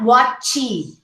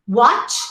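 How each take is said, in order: First: An extra vowel follows the final consonant. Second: It ends cleanly on the final consonant. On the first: The speaker calls it wrong. "and not watchy" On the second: The speaker calls it right. "You say one syllable"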